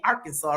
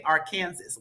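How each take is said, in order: First: "Arkansas" as AR-kan-saw, final s silent; Arkansas said right. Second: "Arkansas" as ar-KAN-sas, like Kansas with a final s; wrong Arkansas. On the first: Shown as a demonstration. Host teaching the chat the right way, Arkansas as AR-kan-saw. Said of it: "Now, you gotta say Arkansas". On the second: Retold or imitated. Host mocking how some people say it, ar-KAN-sas. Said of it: "Some people say Arkansas".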